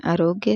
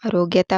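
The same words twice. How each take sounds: First: आरोग्य said without "ta"; correct form. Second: आरोग्यता said with an added "ta"; wrong form. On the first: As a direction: end आरोग्य on "gya". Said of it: "आरोग्यता होता ही नहीं है". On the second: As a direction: end आरोग्यता on "gya-ta". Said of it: "होता ही नहीं है". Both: Shown as a demonstration.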